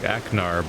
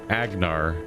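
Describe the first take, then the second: First: The name has a K sound, no extra vowel. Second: The name has a G sound in the middle. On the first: This would be an acceptable compromise. "I'd even maybe ex accept like Aknar" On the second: This is how the game's voice actor says it. "he pronounced it Agnar like a G"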